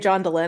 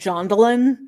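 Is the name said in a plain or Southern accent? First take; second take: plain; Southern. First: The name is said in a plain accent. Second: The name is said in a Southern accent.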